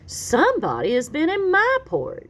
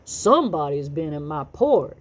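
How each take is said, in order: First: It is said in a medium voice. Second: It is said in a deep, gruff voice.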